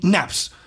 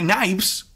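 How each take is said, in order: First: It sounds like naps, in a Southern drawl. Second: It ends with a clear v sound. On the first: "con un acento sureño de los Estados Unidos" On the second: "con V"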